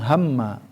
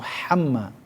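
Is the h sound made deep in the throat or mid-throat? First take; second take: deep; mid-throat. First: The h comes from deep in the throat. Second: The h comes from the middle of the throat. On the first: The speaker calls it wrong. "bukan hamma" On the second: The speaker calls it right. "itu hamma"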